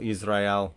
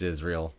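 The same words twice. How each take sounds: First: It is said with a Hebrew accent. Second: It is said with a plain English accent. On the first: "if you say it with the accent" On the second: "I know it's Israel"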